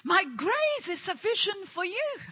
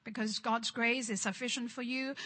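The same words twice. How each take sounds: First: Higher, bold declaration of grace; true meaning, lifted up. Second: Twisted, resigned version. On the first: Shown as a demonstration. Preacher restores the verse's true meaning, higher and proclaimed. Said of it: "But that's not what God was talking about". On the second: Retold or imitated. Preacher mimics how the religious spirit twists the verse, low and soft. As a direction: lower and softer, said as an excuse to suffer. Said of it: "the religious spirit twisted it".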